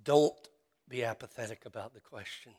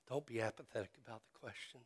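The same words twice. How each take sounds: First: Begging the congregation not to shrug it off; pleading. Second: Fast and softer, like an aside; a rushed, softer echo of the plea; quick soft repeat. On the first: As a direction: hit don't, then let the rest drop. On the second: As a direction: toss it off quickly and quietly. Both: Real, not acted. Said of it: "But I would beg you".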